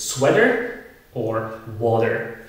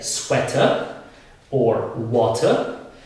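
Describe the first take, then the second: First: The t sounds like a soft quick d. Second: The t is a crisp, clear t sound. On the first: "but in American English, it's" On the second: "In British English, we say"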